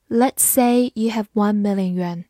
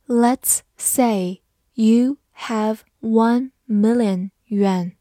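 First: Said in the usual way. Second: Slow, word by word with pauses; slow reading. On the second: Shown as a demonstration. Teacher reads the example sentence for learners, slowly. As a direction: read it slowly, each word on its own.

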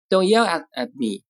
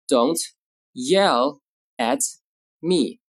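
First: Said in the usual way. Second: Slow, with a gap between words; word-by-word model. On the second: Shown as a demonstration. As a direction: dictate it calmly and slowly. Teacher models sentence word by word.

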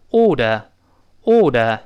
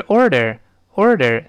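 First: British "order" without either r; slow British "order", aw-duh; British pronunciation. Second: "order" with an r in each syllable; both R's curled. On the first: Teacher showing the easier way to read it, British pronunciation. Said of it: "但是英式呢，发音这个发音好读". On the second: Teacher joining the two parts for students, both R's curled. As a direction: model "order" American style. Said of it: "要勾舌的". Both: Shown as a demonstration.

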